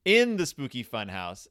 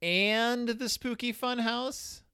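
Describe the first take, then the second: First: IN punched, then falling; stress on IN. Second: Slow, high rising "and the Spooky Fun House"; questioning title. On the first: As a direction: correct it with a firm IN. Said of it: "No, in". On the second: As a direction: stretch AND, then rise into a question. Questions the title before correcting it. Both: Real, not acted.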